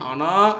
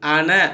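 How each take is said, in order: First: The final vowel is drawn out long. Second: The final vowel is cut short. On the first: The speaker calls it wrong. "அனா என்று இல்லாமல்" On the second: The speaker calls it right. "அன என்று ஓத வேண்டும்"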